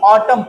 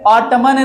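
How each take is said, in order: First: The final n sound is silent. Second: The final n sound is pronounced. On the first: The speaker calls it right. "M के बाद जो एन है वो silent होगा" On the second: The speaker calls it wrong. "ऑटमन नहीं"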